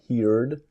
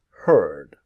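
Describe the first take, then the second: First: The vowel sounds like the one in 'hear'. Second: The vowel sounds like the one in 'her'. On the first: The speaker calls it wrong. "not heard. Forget the A's" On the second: The speaker calls it right. "let's imagine the A disappears"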